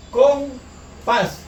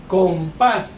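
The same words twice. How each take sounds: First: "Compás" broken in two, higher, with a pause after "com"; separado en sílabas. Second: Said in the usual way. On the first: Shown as a demonstration. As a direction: say "Compás" syllable by syllable: com, pás. ("Compás" en dos sílabas separadas: com, pás) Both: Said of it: "¿Dónde lleva la mayor fuerza de voz?".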